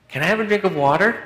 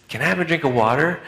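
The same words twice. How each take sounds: First: Put-on much higher, insistent child whine with stress on drink; more emphatic plea. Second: Put-on a kid's plea, pitched up; child asking. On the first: Boy asking mom again from bed, more insistent whine. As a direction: push the kid's plea harder, rising. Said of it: "A little more emphatically". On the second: Little boy calling to mom from bedroom, pleading. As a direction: ask like a little boy from bed.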